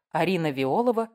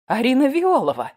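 First: Said in the usual way. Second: Loud, high cry of sudden realization; excited narrator's outcry; acted yell. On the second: A narrator's reading. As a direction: burst out in startled recognition. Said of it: "заорала я".

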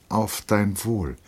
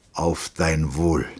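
First: Slow toast, pitched higher; a hint of the lieutenant, higher and drawn out; lightly voiced lieutenant. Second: Slow, measured toast; a hint of the captain, drawn out; lightly voiced captain. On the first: Lieutenant returns the captain's toast, slow and higher. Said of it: "sagte Trotta". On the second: Captain toasts his drinking companion, slow and measured. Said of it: "sagte der Hauptmann". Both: A narrator's reading.

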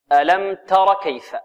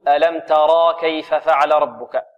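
First: تر said short with no alif. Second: ترى with a long alif after the ra; wrong long alif. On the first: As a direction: clip تر to a short tara. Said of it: "تحذف الألف هذه". (تر بلا ألف) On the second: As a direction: stretch ترى into taraa. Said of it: "وهذا خطأ". (ترى بمد الألف خطأ) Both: Shown as a demonstration.

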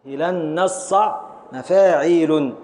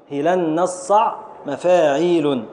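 First: Slow scansion. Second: Said in the usual way. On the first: Shown as a demonstration. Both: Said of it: "نقف على العين الساكن الثالث".

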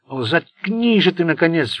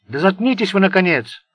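First: Higher, louder, slow hysterical squeal; shrieking on the edge of hysteria. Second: Loud, higher outburst; snapping into a shout. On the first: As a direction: screech it near breaking. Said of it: "взвизгнул Сеймур". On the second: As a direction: lose it and shout. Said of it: "сорвался на крик Сеймур". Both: A narrator's reading.

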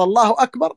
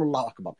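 First: A hint of the muezzin's call, higher with a rising end. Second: Much softer, lower reply, falling at the end; listener's reply. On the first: Teacher lightly imitating the muezzin, a hint of chanted call. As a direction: lift it lightly like a distant call to prayer. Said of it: "قال". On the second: Shown as a demonstration. Teacher showing how the listener answers the call, soft and low. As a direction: answer it under your breath. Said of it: "نقول".

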